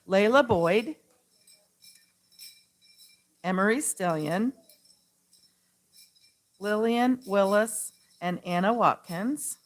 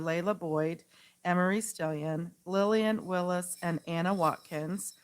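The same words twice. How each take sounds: First: The names are read slowly. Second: The names are read quickly.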